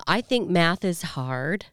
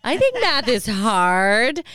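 First: Slow, airy doll voice; deliberate doll-like line delivery; talking Barbie voice. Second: Slow, brighter doll take; talking Barbie voice. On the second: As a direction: lean into the doll voice. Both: Retold or imitated. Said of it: "her first statements were".

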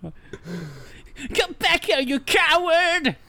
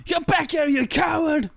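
First: High, slow, drawn-out hammy cry; hammy villain yell. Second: Overacted shout. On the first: Acted. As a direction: ham up a cowardly villain's challenge. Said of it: "says Tomorrow". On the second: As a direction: overact it like a chapter villain. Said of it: "we overacted all the characters".

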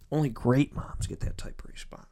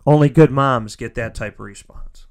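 First: Soft, whispered emphasis; hushed praise. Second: Louder, full-voiced statement; emphatic praise. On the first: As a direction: drop to a heartfelt whisper. Repeated line, dropped to a hush. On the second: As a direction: declare it firmly, out loud. Repeated line, full voice then hushed. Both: Real, not acted.

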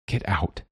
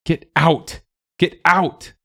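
First: Softly spoken, restrained dismissal. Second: High-pitched narrated yell, stressing OUT. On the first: Willa to the gathered animals, quiet and restrained. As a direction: say it quietly, holding back. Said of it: "So Wilhelmina said". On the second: Willa driving the animals out, yelling high. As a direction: cry it out to drive them away. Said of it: "she yelled". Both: A narrator's reading.

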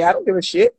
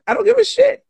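First: Said in the usual way. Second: Much higher, defiant. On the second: Shown as a demonstration. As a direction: jump way up in pitch, defiant.

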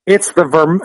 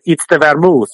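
First: Said in the usual way. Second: Imitated Italian bartender accent. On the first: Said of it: "the Italian bartender said". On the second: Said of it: "Italian accent".

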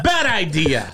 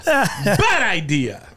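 First: Said in the usual way. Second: Bad idea drawn out as a slow mock warning. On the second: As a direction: stretch Bad idea out slowly, mock solemn. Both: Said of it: "and then I said".

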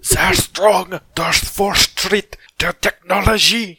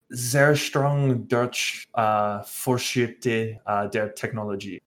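First: Sehr strong Deutsch Vorschrift der Technologie over-enunciated, high and loud; overly fancy wrong pronunciation. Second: Slow, halting bad German reading; Sehr strong Deutsch read slowly, word by word. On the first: Retold or imitated. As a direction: Technologie stretched slowly in a mock fancy German voice. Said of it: "crazy over-enunciate things". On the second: Real, not acted. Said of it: "Bad German, Nick".

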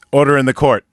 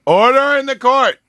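First: Said in the usual way. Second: Judge shouting. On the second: Acted. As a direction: bellow it to silence the room. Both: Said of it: "is that good?".

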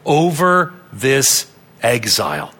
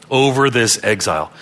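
First: Three words spaced out slowly and deliberately; slow emphasis. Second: Said in the usual way. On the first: Real, not acted. Preacher stressing God's control over exile, slow and deliberate. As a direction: weigh out "over this exile" word by word.

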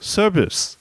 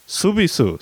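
First: Said in the usual way. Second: Put-on "Subisu" as the mom says it, for service, in a mild Korean accent; Korean pronunciation. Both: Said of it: "You know how Korean people may say service".

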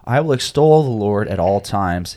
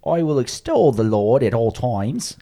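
First: Said in the usual way. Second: Slow, higher mock English accent, Monty Python style. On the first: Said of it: "would you like to help us out by reading". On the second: Podcast host jokingly reads the psalm in a mock English accent. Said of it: "I think you have to read it in an English accent".

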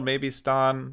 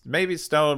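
First: "Ston" with an open "ah" vowel, like "stahn"; Ston with short vowel. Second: "Stone" with a long O, like the rock; Stone like the word. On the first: Host trying the other reading of a character's name, "Ston" with open vowel. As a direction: say "Ston" to rhyme with John. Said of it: "I suppose that could be Ston". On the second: Host weighing how a character's name is said, "Stone" with long O. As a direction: say "Stone" to rhyme with bone. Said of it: "it's spelled like stone with two N's". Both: Shown as a demonstration.

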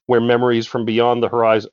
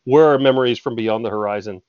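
First: WHERE said in place of "were"; misread word. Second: WERE said clearly in place of "where"; re-read it with "were", rhyming with her; corrected word. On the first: Reader slipping on the passage, "where" for "were". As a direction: read it as "where", rhyming with air. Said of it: "oh, were memories". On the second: Reader correcting the slip, "were" pronounced clearly. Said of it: "oh, were". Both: Real, not acted.

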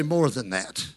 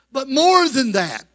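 First: "More" said much lower and softer, a call to echo; lower repeat line. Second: "more" punched louder, falling after; stress on more. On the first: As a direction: drop low and hand the line to the congregation. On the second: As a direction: lean hard on "more" as the model line. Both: Shown as a demonstration. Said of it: "touch your neighbor and say".

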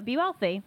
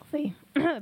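First: Said in the usual way. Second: Voice cracking out. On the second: Real, not acted. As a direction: whisper as the voice gives out. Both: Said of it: "my voice went out".

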